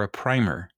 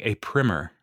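First: "primer" said as "prymer", long i. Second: "primer" said as "primmer", short i. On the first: Host offering the other pronunciation, long-i "primer". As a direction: say "primer" to rhyme with "timer". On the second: Host unsure which pronunciation is right, short-i "primer". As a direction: say "primer" to rhyme with "trimmer". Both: Shown as a demonstration. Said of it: "I don't know how to pronounce it".

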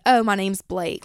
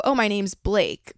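First: Georgia country drawl; twangy Southern accent. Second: Said in the usual way. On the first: Shown as a demonstration. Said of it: "I was talking like this". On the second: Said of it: "But I didn't say it like that".

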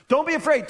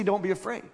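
First: Don't be afraid, called out higher and louder; emphatic command. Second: Said in the usual way. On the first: Shown as a demonstration. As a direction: proclaim it firmly. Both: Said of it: "Why does he say".

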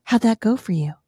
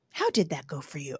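First: Loud teasing husband's question; lightly voiced husband asking his wife; needling husband. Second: Low, soft voice of God; the Lord's gentle rebuke. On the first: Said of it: "he leans over and he goes". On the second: Retold or imitated. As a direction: ask it quietly, as the Lord would. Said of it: "the Lord is just like".

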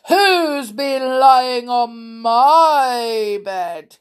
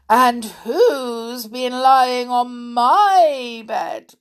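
First: Slow, loud, drawn-out bear roar; growling Father Bear. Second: Slow, raised, indignant bear voice; growling Mother Bear. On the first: Father Bear seeing his bed crushed, growling. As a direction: growl it long and outraged. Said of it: "he growled". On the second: Mother Bear seeing her bed used, growling. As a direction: draw out the protest loudly. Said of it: "growled Mother Bear". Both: A narrator's reading.

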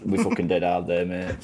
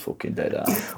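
First: Grimsby accent. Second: Grimsby accent whisper. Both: Shown as a demonstration. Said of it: "can you do a, a Grimsby accent?".

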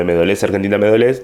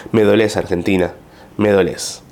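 First: Said in the usual way. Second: Hammed-up patriotic sorrow; mock-solemn lament over the country; mock dramatic lament. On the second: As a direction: lean on me like a tragic farewell. Reading the mock-dramatic post.

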